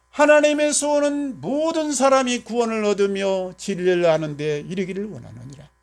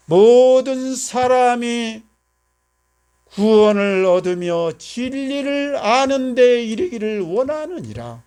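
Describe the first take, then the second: First: Said in the usual way. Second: Each word drawn out slowly and stressed, louder; slow emphatic recitation. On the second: Shown as a demonstration. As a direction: proclaim the verse slowly, word by word. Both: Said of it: "하나님의 소원에 내가 집중하세요".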